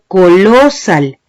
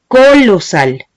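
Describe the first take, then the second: First: The stress is on the second syllable. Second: The stress is on the first syllable. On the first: "ni digo colosal" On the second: "Yo no digo colosal"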